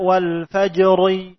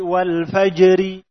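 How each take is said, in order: First: The r is pronounced thick and heavy. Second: The r is pronounced thin and light. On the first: The speaker calls it wrong. "tidak dibaca wal fajri" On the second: The speaker calls it right. "tapi wal fajri"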